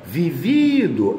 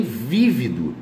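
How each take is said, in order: First: "vivido" with a drawn-out middle VI; stress on middle syllable. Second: "vívido" slowly, stressed on the first VÍ; stress on first syllable. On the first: Teacher contrasting participle and adjective, "vivido" stressed on middle VI. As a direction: stretch the second VI of "vivido". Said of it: "vivido é particípio do verbo viver". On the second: Teacher contrasting adjective with participle, "vívido" stressed on first VÍ. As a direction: hit the opening syllable of "vívido". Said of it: "mas tem vívido". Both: Shown as a demonstration.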